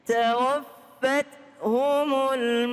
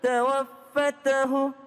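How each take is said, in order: First: The t is held and followed by hum. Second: A vowel follows the t, ending in ahu. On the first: The speaker calls it right. "Tawaffat humul mala" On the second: The speaker calls it wrong. "Bukan tawaffatahu. Salah"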